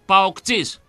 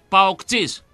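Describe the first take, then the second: First: The word is said with a voiceless 'ts' sound. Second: The word is said with a voiceless 'ts' sound.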